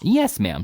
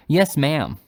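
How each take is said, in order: First: Said in the usual way. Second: Louder, clipped impatience; impatient. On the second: A narrator's reading. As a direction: hurry her along, impatiently. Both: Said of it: "said Bob, all impatience".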